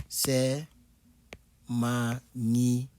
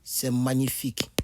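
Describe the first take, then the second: First: "C'est" whispered, "magnifique" slow and hushed. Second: Said in the usual way. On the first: Shown as a demonstration. Teacher whispering to show "magnifique" slowly. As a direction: breathe "magnifique" slowly as if in awe.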